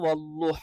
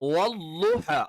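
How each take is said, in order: First: The consonant is a dark l. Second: The consonant uses the side of the tongue. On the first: The speaker calls it wrong. "അള്ളാ എന്ന് ഉച്ചരിക്കുന്ന ലാമിന്റെ മഖ്റജിൽ നിന്ന് ... തെറ്റാണ്" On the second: The speaker calls it right. "വല്ലുഹ അല്ലാത്ത എല്ലാ ഉച്ചാരണങ്ങളും ... തെറ്റാണ്"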